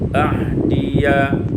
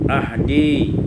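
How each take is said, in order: First: The word ends with an added 'ya' syllable. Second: The word ends on 'di' with no 'ya'.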